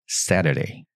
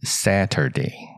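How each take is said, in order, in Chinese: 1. 第一个音节保持短。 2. 第一个音节拖得长。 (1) "前面短一点Saturday" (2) "所以不太发成Saturday"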